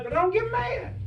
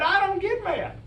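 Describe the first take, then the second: First: High, insistent punchline denial. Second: High, insistent denial. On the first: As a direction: land the denial high and firm. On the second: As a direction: swear you never get mad, pitched up. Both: Real, not acted. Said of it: "I never think I get mad".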